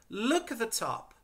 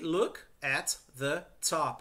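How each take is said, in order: First: The words run together smoothly, linked. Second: The words are said separately, one by one. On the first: The speaker calls it right. "Emendem essas palavras" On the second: The speaker calls it wrong. "A gente tende a ler separado"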